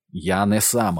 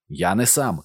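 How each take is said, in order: First: Mildly barked insistence; understated bark. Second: Mildly raised protest; understated shout. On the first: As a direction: insist firmly, voice a little raised. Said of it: "гаркнув Максим". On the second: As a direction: call it out with restraint. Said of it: "крикнув Максим". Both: A narrator's reading.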